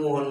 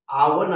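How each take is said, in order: First: The word begins with an 'o' sound. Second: The word begins with an 'aa' sound. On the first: This is the common everyday form. The speaker calls it wrong. "बरेच जण ओव्हन ओव्हन म्हणतात" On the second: This is the true pronunciation. The speaker calls it right. "आवण असा उच्चार आहे"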